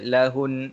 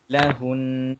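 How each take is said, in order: First: The final n sound is cut short. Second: The final n sound is held slightly longer. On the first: The speaker calls it wrong. "kita tak boleh baca lahun" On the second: The speaker calls it right. "Kita kena panjangkan sedikit huruf nun dekat belakang tu"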